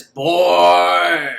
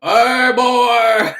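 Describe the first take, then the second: First: Put-on loud, long drawn-out "boy"; Tall Man tagline. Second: Loud, high put-on woman's call; mock female villain. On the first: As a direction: boom it like a hammed-up horror villain. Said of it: "his tagline is". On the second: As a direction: turn the villain's tagline into a high-pitched shout. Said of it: "What if he were the chick".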